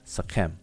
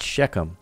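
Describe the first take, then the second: First: The word begins with an s sound. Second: The word begins with an sh sound. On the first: The speaker calls it right. "It's Sekhem" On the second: The speaker calls it wrong. "not Shechem"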